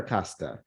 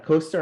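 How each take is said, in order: First: Costa with an open first vowel, "CAH-sta". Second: Costa with a long O, "COH-sta". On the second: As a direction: round the first vowel of Costa to "oh". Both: Shown as a demonstration. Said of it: "Costa or Costa".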